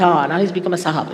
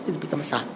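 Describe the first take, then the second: First: Mocking sahib remark. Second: Quiet mocking echo. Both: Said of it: "they say".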